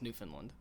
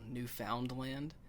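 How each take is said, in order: First: The word is run together as one unit. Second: The word is said in separate, distinct parts. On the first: The speaker calls it right. "you just gotta clump it all to one thing" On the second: The speaker calls it wrong. "but they never called it that"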